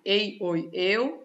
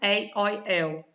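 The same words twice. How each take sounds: First: The diphthongs start with a closed vowel. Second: The diphthongs start with an open vowel. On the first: "de tom grave" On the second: "De tom aberto"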